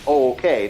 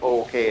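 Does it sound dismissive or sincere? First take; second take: sincere; dismissive. First: It sounds sincere and accepting. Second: It sounds dismissive and backhanded.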